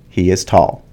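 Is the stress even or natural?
natural. One word gets more stress than others. The speaker calls it right. "with the correct stress"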